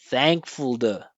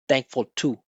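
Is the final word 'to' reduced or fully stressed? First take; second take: reduced; stressed. First: Thank is stressed; the final word is short. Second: Both words get equal, flat weight and pitch. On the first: The speaker calls it right. "make the unimportant parts really short" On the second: The speaker calls it wrong. "He made it sound the same"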